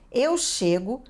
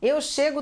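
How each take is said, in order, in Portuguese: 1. É dita em ritmo normal, com cuidado. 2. É dita em ritmo muito rápido.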